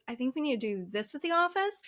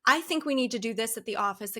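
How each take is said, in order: First: "office" swooping up into a question; uptalk. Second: Said in the usual way. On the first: Shown as a demonstration. Colleague demoing uptalk, rising at the end. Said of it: "end of each sentence kinda swoops up". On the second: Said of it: "instead of saying".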